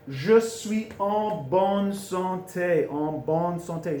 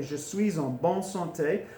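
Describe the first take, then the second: First: "Je suis en bonne santé" very slow, syllable by syllable; drawn-out, careful "Je suis en bonne santé"; slow teaching demo. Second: Said in the usual way. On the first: Shown as a demonstration. Teacher models new phrase slowly.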